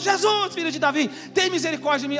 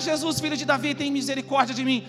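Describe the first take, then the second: First: It is said at a louder volume. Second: It is said at a softer volume.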